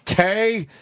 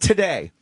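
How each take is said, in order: First: The first syllable is dropped, leaving one syllable. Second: Both syllables are said in full and clearly. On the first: It imitates how someone else mangles the word. The speaker calls it wrong. "Just the way he goes" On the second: It is the normal way to say the word. The speaker calls it right. "It's not even today"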